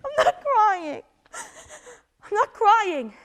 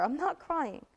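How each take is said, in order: First: Higher, still tearful while denying it; crying denial. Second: Calmed down. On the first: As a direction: insist through the tears. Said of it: "Don't cry". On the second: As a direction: pull yourself together quietly. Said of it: "It's over". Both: Acted.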